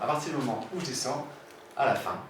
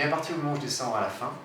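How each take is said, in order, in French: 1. La hauteur descend à la fin. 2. La hauteur reste stable à la fin. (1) "c'est fermé" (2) "ah, pardon"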